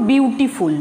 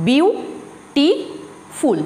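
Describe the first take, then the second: First: Said in the usual way. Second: বিউটিফুল drawn out very slowly, বি-উ-টি-ফুল; slow syllabified বিউটিফুল for the class; syllable by syllable. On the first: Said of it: "ত্রিমাত্রিক শব্দ উচ্চারণ করি". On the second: Shown as a demonstration. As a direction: spell out বিউটিফুল slowly, one syllable at a time. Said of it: "তিনটে syllable আছে".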